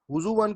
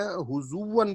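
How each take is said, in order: First: حضوون with a catch before the final -an syllable; original hamza. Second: حضوون with a long oo gliding into w; hamza turned waw. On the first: Teacher giving the original word, hamza sounded. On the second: Teacher showing the converted reading, waw in place of hamza. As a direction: draw out the oo in حضوون and glide into -wan. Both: Shown as a demonstration. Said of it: "اس حمزہ کو میں نے واو سے بدل دیا".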